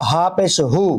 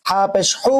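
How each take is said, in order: First: "হু" with a light, open h; the other h. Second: "হু" with a tight h from the throat; one of two h's. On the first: Teacher contrasts two h letters, light h. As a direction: let the "হ" of "হু" out loosely. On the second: Teacher contrasts two h letters, tight h. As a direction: constrict the throat on "হু". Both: Shown as a demonstration. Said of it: "দুটার মাঝে পার্থক্য আছে".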